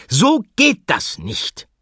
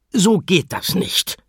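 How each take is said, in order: First: High, loud, slow fed-up cry; exasperated teacher shout. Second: High, slow stern scolding; scolding teacher. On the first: Teacher losing her temper with the animals, loud slow cry. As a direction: lose your patience and call it out. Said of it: "rief sie". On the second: Teacher scolding the animals in the kitchen, high and stern. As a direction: tell them off like a fed-up teacher. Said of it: "schimpfte sie". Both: Acted.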